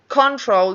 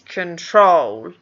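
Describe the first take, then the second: First: The stress is on the first syllable. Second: The stress is on the second syllable. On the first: The speaker calls it wrong. "The word control doesn't exist in English" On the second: The speaker calls it right. "always going to have that second syllable stressed"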